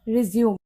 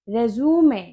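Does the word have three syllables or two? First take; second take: two; three. First: It is said with two syllables, ending in 'zoom'. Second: It is said with three syllables, ending in 'may'. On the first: It means to start again after a pause. "वहां इसको बोलोगे आप रिज्यूम" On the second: It is a document for a job application. "उसे आप बोलोगे रेज्यूमे"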